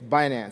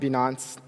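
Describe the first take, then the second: First: The first syllable sounds like 'bi' in binary. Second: The first syllable does not sound like binary. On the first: The speaker calls it right. "It's Binance. ... So it's binary finance" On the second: The speaker calls it wrong. "it's not Binance, you know, as some people pronounce it"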